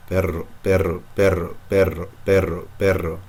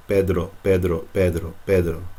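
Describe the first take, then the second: First: Perro with a long trilled double R; rolled double R. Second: Pedro with the D touching the roof of the mouth; Pedro drill. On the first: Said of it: "Try to take that D away". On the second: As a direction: repeat Pedro, feel the tongue on the roof. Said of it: "you can feel the D touching the roof". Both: Shown as a demonstration.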